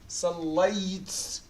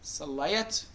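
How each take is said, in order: First: The marked letter carries no vowel at all. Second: The marked letter carries a short a vowel. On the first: "If I put سكون, how are you going to pronounce two sukuns here?" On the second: "If I put فتحة"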